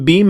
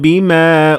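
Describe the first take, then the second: First: The final vowel is short and clipped. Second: The final vowel is held for two beats. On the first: It means with what, as a question. "without any mad" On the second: It means with which. "bima that has alif at the end of it"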